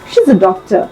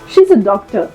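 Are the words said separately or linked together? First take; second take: linked; linked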